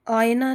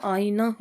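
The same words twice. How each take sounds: First: आईना as AAY-na, with a glide; mispronounced आईना. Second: Said in the usual way. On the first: Shown as a demonstration. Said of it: "आईना नहीं होता". (आईना को 'आयना' बोलें) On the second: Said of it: "आईना होता है".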